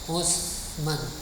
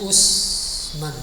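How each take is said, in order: First: The middle consonant is a th-like sound. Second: The middle consonant is a plain s sound. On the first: This is the original Arabic reading. "Nah ini aslinya. Ain sa" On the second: This is the familiar Indonesian reading. "Kita ma'ruf bacanya Usman"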